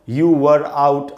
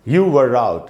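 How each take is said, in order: First: Each word is said separately with breaks between. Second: The r runs straight into the next word. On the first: The speaker calls it wrong. "अलग अलग करके नहीं पढ़ना है" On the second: The speaker calls it right. "ऐसे पढ़ेंगे"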